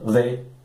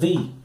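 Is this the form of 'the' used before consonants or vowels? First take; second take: consonants; vowels. First: It is the normal form used before consonant sounds. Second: It is the different form used before vowel sounds. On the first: "Se o artigo definido é seguido por um substantivo iniciado por consoante, ele é pronunciado the" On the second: "o the não vai ser pronunciado como o the normal. Ele, a pronúncia vai ser the"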